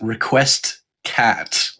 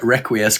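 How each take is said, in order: First: It is said as two words, request cat. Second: It is said as requiescat, four syllables. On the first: The speaker calls it right. "It's Request Cat" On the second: The speaker calls it wrong. "it's not requ- re- Requiescat"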